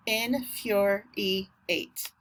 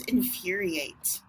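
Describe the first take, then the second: First: INFURIATE very slowly in four beats; slow syllable-by-syllable infuriate; split into syllables. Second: Said in the usual way. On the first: Shown as a demonstration. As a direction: break infuriate into in, fur, e, eight. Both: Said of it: "Four syllables".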